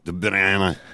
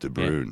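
First: The name is said in a Flemish Dutch accent. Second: The name is said in a plain English accent. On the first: "adopt an affected Dutch Flemish accent and go" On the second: "that's simple"

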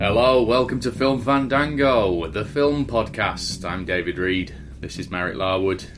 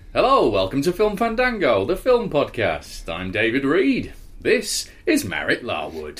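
First: It sounds flat and a bit depressed. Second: It sounds moderately lively and upbeat.

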